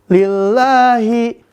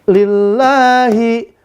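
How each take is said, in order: No difference in how they are said.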